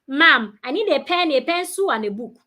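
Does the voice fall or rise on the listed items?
fall. The voice falls on the listed items. The speaker calls it wrong.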